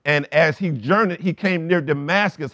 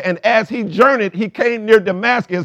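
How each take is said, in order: First: Said in the usual way. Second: Scripture read out loud and high; preached reading. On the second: Shown as a demonstration. Pastor rereading the Damascus verse to the church, preaching loudly. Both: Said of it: "It said".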